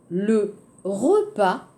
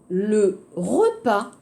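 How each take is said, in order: Both takes have the same delivery.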